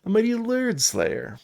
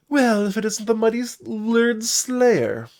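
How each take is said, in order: First: High bard voice leaning early on "mighty Lurd", dropping on "Slayer"; high, theatrical stress on "mighty"; corrected emphasis. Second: High, loud storybook bard voice; high-pitched, winking bard; playful bard greeting. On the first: Shown as a demonstration. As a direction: redo the title with the weight moved onto "mighty". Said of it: "I put the emphasis on the wrong word". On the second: Acted. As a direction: hail a hero with a high, theatrical flourish.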